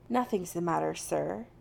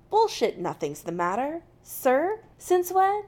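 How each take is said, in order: First: Said in the usual way. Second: Disbelieving, climbing high and loud at the end; incredulous echo. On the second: A narrator's reading. Jim challenging McCoy's formal denial, incredulous. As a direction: throw the words back in disbelief.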